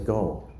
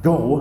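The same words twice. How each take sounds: First: It is said with little force. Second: It is said with strong force.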